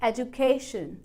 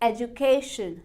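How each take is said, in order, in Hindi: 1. Stress 'ca' syllable पर है। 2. Stress 'ca' syllable पर है।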